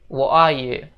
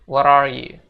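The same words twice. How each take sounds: First: The t in 'what' becomes a glottal stop. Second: The t in 'what' sounds like a d. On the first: "Jadi T itu seolah-olah koma di atas gitu" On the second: "mereka bakal bilang T itu jadi seolah-olah huruf D"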